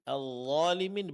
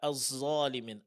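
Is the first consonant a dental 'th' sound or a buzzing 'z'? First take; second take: dental th; buzzing z. First: The first consonant is a thick dental 'th' sound. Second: The first consonant is a thick buzzing 'z' sound. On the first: The speaker calls it right. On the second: The speaker calls it wrong.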